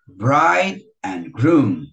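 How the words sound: The stress falls on bride and groom. The speaker calls it right. "Aí bride e groom é que é forte"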